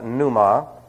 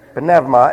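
First: The initial p is silent. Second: The initial p is pronounced. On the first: The speaker calls it wrong. "if you hear it pronounced pneuma, that's only because people don't know how to speak the Greek language" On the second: The speaker calls it right. "every letter in the Greek language is pronounced. There are no silent letters"

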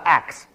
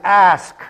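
First: The word ends with a k then s sound. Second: The word ends with an s then k sound. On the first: The speaker calls it wrong. "not axe" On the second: The speaker calls it right. "the word is ask"

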